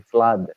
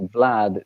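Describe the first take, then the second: First: The name begins with an F sound. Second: The name begins with a V sound. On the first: This is how people in Germany say the name. The speaker calls it wrong. "in Germany they say flood" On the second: This is how the name is meant to be said. The speaker calls it right. "they don't say Vlad"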